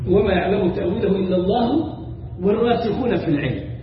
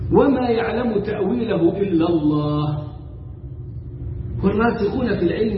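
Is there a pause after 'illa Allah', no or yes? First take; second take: no; yes. First: It runs on without a pause after 'illa Allah'. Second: There is a pause after 'illa Allah'. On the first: Those firm in knowledge also know its interpretation. The speaker calls it wrong. "هم ما وقفوش الوقف اللازم ده" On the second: Only God knows its interpretation. The speaker calls it right. "الآية تقرأ هكذا، وفي عندك وما يعلم تأويله إلا الله عليها وقف لازم"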